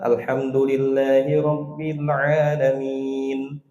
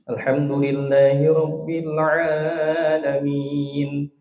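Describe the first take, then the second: First: The vowel after 'ain' is held only briefly. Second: The vowel after 'ain' is stretched very long. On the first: The speaker calls it right. "Dua harokat aja cukup" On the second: The speaker calls it wrong. "Takutnya kalau dipelajarin jadinya begini. ... Jadi empat harokat itu ainnya. Bisa jadi enam. Jangan"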